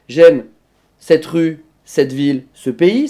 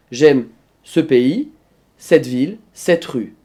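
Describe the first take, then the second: First: "rue", "ville", "pays" set apart, last one rising; cadence majeure. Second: Slow, separated items stepping down to RUE; "pays", "ville", "rue" set apart, last one falling; cadence mineure. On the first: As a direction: separate items climbing to a lifted PAYS. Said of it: "ça c'est la cadence majeure". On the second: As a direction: narrow the list down, dropping on "rue". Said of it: "et la cadence mineure". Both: Shown as a demonstration.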